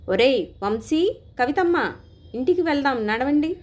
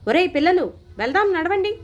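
First: Put-on higher, louder call to kids far off; father calling his children home from a distance; calling out loudly. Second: Much higher, louder, irritated yell; father impatiently ordering children to go; impatient shout. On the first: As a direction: shout across the park to the children. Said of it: "గట్టిగా అరిచాను". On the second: Acted. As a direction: bark at the kids to leave now. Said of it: "అసహనంగా లేచి అరిచాను".

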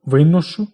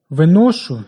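First: Виношу as ви́ношу, first syllable hit; perfective, so stress the start; наголос на першому складі. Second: Виношу as виношу́, last syllable hit; imperfective, so stress the end; наголос на останньому складі. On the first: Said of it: "доконаний вид". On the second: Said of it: "недоконаний вид". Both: Shown as a demonstration.

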